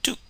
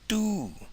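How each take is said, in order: First: The vowel is short and clipped. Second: The vowel is said on a high pitch. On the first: To imitate or mimic. "you get the short vowel oo" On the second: To be overcooked or charred. "you raise the tone and you get the high tone oo"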